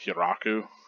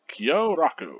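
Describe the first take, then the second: First: The o vowels are cut short. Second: The o vowels are held long. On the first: The speaker calls it wrong. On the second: The speaker calls it right.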